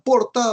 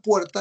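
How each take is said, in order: First: The first vowel is a plain o sound. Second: The first vowel is the diphthong ue.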